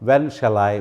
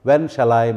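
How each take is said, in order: Both takes have the same delivery.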